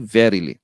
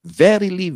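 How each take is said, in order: First: Verily tiefer nachgesetzt, fallend; falling echo verily. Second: Verily hoch und betont angesetzt; emphatic Verily. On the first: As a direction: let verily fall as the echo. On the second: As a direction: hit Verily hard then drop. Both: Shown as a demonstration. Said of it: "It is an emphatic word".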